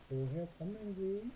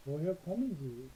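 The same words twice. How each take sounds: First: Slow model, rising. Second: Slow model. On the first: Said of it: "당신 어디에서 왔습니까". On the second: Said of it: "방금 여기 읽었죠". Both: Shown as a demonstration.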